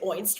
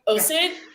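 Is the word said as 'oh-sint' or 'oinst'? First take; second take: oinst; oh-sint. First: The word is squeezed into one syllable, oinst. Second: The word is said in two syllables, oh-sint. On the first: The speaker calls it wrong. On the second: The speaker calls it right.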